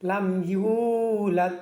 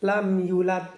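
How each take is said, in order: First: It is read with the long vowel held clearly. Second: It is read fast with the long vowel cut short. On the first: The speaker calls it right. "এটা সঠিক" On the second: The speaker calls it wrong. "এটা ভুল"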